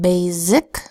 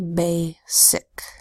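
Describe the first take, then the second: First: The middle consonant is a buzzing Z sound. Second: The middle consonant is a hissing S sound. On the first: The speaker calls it wrong. "you could pronounce it basic, but that doesn't match a word in my spoken vocabulary" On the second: The speaker calls it right. "try the S that says S and say basic"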